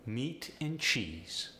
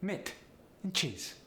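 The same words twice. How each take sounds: First: Said in the usual way. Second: "Meat and cheese" as mitt and chiz; higher, short vowels in "Meat" and "cheese"; Polish-accented "Meat and cheese", E turned to I. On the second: Shown as a demonstration. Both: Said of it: "The E sound goes to the I sound".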